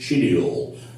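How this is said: It is said with a British pronunciation. "the British people pronounce it schedule"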